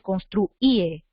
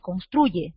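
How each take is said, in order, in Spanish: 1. La y se pronuncia como un sonido vocálico, como i. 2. La y se pronuncia como un sonido consonántico. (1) "no dices construye, ¿no? No dices así" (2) "tú la pronuncias como Y, tú dices construye"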